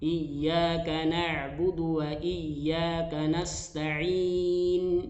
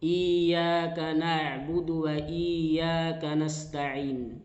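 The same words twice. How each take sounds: First: The doubled y sound gets slight emphasis. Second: The doubled y sound is not doubled. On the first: The speaker calls it right. "ada penekanan sedikit" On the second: The speaker calls it wrong. "ya bertasdid ini tidak diperhatikan"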